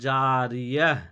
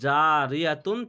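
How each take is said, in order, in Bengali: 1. শব্দটি সাকিন '-ah' উচ্চারণ দিয়ে শেষ হয়। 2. শব্দটি পূর্ণ '-atun' উচ্চারণ দিয়ে শেষ হয়।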